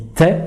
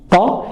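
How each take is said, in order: First: The t is light and thin. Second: The t is heavy and emphatic. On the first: The speaker calls it right. "une lettre légère, on dit T" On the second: The speaker calls it wrong. "si on la rend emphatique"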